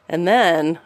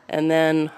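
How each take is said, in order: The two takes are said the same way.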